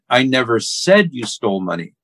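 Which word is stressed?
said. The stress is on the word said.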